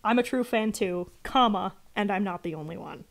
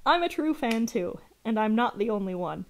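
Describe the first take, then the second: First: Spoken "comma" after "too"; read as one sentence. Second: Full stop after "too"; read as two sentences. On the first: Streamer correcting the writer's punctuation, comma read out. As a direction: say "comma" aloud between "too" and "and". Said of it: "It should be one sentence". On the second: Streamer showing the writer's bad punctuation, split in two. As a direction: close off "I'm a true fan too", then restart on "and". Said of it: "That's two sentences". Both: Shown as a demonstration.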